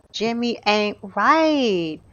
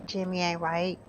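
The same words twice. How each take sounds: First: Slow, drawn-out verdict; emphatic disapproval. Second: Quiet, understated remark; low-key disapproval. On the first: Gamer judges Jimmy for leaving, drawn-out disapproval. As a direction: stretch RIGHT out long. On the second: Gamer judges Jimmy for leaving, quiet disapproval. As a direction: say it softly, almost to yourself. First take, muttered aside. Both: Real, not acted.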